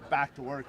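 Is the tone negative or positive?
negative. It is said in a negative, scolding tone.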